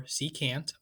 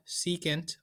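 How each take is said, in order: First: "secant" said see-cant, rhyming with "can't"; alternative pronunciation. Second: Said in the usual way. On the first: Shown as a demonstration. Teacher offering the other name for secant, alternative pronunciation. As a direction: give "secant" a clear full "a" in its last syllable. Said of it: "as some people call it". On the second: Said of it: "or as some people call it".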